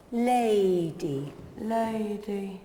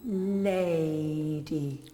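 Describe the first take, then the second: First: "Lady" said cleanly, no nasal tone; crisp, careful "Lady" with an open vowel; prim precise elocution. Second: "Lady" pushed through the nose; nasal Lady. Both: Shown as a demonstration. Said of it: "that's coming down your nose".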